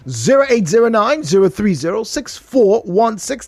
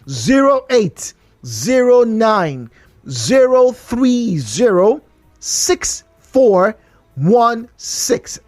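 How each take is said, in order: First: The number is read fast. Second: The number is read slowly.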